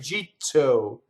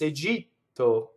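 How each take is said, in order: First: The T is said with a puff of air. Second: The T is said without a puff of air. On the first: The speaker calls it wrong. "It's not a jeetto with air" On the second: The speaker calls it right. "In in in in Italian, it's a jeetto"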